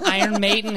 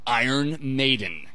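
First: The name is said in a flat, casual way. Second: The name is said in a big, dramatic way. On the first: The speaker calls it wrong. "You can't just be like, oh" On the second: The speaker calls it right. "I cannot say this band's name without doing it a bit over the top"

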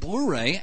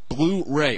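First: The word is pronounced in an odd way. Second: The word is pronounced in the usual way. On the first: The speaker calls it wrong. "did I pronounce that weirdly? I did" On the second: The speaker calls it right. "that's better"

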